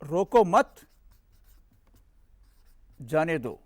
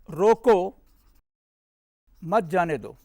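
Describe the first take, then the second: First: There is a pause after 'mat'. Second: There is a pause after 'Roko'.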